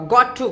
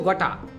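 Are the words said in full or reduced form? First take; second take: full; reduced. First: Both words are said fully and separately. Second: The words are blended into one reduced form.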